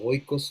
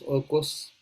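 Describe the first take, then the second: First: The first vowel is an oi diphthong. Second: The first vowel is a plain o sound. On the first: This is how it is said today. "lo podemos decir así en nuestros días" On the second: This is how the ancient Greeks said it. "no tenían diptongos"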